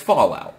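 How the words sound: It is said as a single word. It names the game and the nuclear term. The speaker calls it right. "one word, like nuclear fallout"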